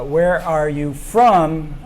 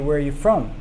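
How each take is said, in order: First: Each word is said fully and separately. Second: The words are reduced and run together.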